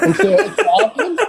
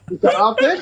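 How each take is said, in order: First: High, slow, laughing disbelief; mocking laughing question. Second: Said in the usual way. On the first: Real, not acted. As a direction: laugh it out at the opponent, slowly. Mocking the opponent in debate. (سؤال ساخر بضحكة)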